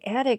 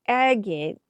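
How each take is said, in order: First: The word sounds like attic, with a t. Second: The word sounds like agate, with a g. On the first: The speaker calls it wrong. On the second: The speaker calls it right.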